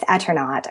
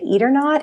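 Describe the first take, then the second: First: The name does not sound like 'eat or not'. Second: The name sounds like the phrase 'eat or not'. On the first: The speaker calls it right. "which is how I pronounce it" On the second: The speaker calls it wrong. "it sounds like somebody's grandmother's like force feeding you spaghetti"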